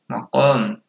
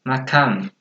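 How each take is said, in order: First: The second vowel is pronounced as 'o'. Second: The second vowel is pronounced as 'a'. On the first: This is the Arabic form. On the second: This is the Indonesian form.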